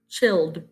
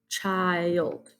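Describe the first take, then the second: First: The vowel is a short i sound. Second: The vowel is a long i sound. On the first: The speaker calls it wrong. "let's say it with the short I sound" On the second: The speaker calls it right. "read it with a long I"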